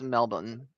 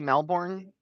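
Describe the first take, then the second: First: It is said the local, non-American way. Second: It is said the common American way. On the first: The speaker calls it right. "I think it's pronounced Melbourne" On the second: The speaker calls it wrong. "I think most people say it here in America, but that's not how you say it"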